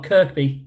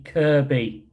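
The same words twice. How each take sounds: First: Kirkby with a K before the B; Kirkby, middle K pronounced; rejected pronunciation, K sounded. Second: Kirby with no K before the B; Kirby, middle K dropped; corrected pronunciation, silent K. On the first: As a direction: say "Kirkby" as KERK-bee. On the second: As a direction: say "Kirby" as KER-bee. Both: Shown as a demonstration. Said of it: "Not Kirkby".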